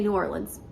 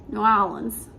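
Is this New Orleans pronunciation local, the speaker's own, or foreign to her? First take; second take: own; local. First: The speaker's own everyday pronunciation of the name. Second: An imitation of how locals pronounce the name. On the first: "but I say New Orleans" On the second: "in New Orleans, they say New Orleans"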